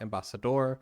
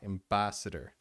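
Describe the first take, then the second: First: The stress is on the last syllable. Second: The stress is on the second syllable. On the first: The speaker calls it wrong. "so it's not ambassador. The stress is not in door" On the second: The speaker calls it right. "The stress is in ba"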